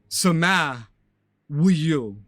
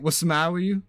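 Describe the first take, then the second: First: The opening sound is dropped, leaving only 'sama'. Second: The T sounds are dropped, but the opening is kept. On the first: "I'll get rid of the wa" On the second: "There's no T's"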